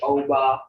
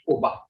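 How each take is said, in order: First: The first vowel is an English-style O sound. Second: The first vowel is a Muskogee-style O sound. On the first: The speaker calls it wrong. "That's the English O" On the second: The speaker calls it right. "like the Muskogee does, That's the right way to say it"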